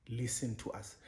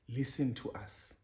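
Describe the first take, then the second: The two takes are said the same way.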